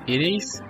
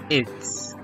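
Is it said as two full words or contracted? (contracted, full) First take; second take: full; contracted. First: Two separate full words are said. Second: The words are merged into one syllable. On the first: "Forma larga" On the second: "Forma contraída"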